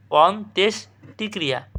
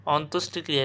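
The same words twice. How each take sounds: First: অন্ত্যেষ্টিক্রিয়া broken as "on-tesh... ti-kriya"; correct pronunciation. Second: অন্ত্যেষ্টিক্রিয়া run together as "ontostikriya"; as written. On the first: Teacher giving students the correct sound, split pronunciation. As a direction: sound "tesh" in অন্ত্যেষ্টিক্রিয়া, pausing between parts. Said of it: "সঠিক উচ্চারণ". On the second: Teacher reading out a hard word, spelling pronunciation. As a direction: say অন্ত্যেষ্টিক্রিয়া quickly, with o in the second syllable. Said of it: "এটা বানান কী হবে?". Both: Shown as a demonstration.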